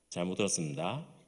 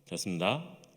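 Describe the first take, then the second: First: Some sounds begin to drop out of the phrase. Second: The phrase is slurred into a few syllables. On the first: A soldier one rank higher says it. "일병쯤 되면은 뭔가가 사라지기 시작합니다" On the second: A senior soldier says it. "병장이 되면은"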